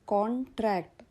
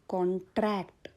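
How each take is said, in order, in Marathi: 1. ताण पहिल्या शब्दांशावर आहे. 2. ताण दुसऱ्या शब्दांशावर आहे. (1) "तेव्हा ते लिगल ॲग्रीमेंट" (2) "आता माझा उच्चाराचा आघात आला ट्रॅक्टवर"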